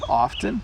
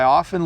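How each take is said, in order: First: The T sound in the middle is clearly pronounced. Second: The T sound is dropped in quick speech. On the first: "you can hear the T" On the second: "when I speak really quickly, I often leave the T out"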